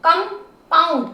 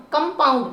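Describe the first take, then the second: First: compound slowly, as कं and pound; segmented, drawn-out compound; syllable by syllable. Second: Said in the usual way. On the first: Shown as a demonstration. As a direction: sound out both parts of compound. Teacher splits word into syllables.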